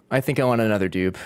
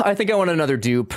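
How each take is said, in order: First: Lower repeat. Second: Said in the usual way. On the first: Shown as a demonstration. Streamer repeating the dupe wish, dropped much lower. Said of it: "repeats lower". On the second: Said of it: "repeats in two voices".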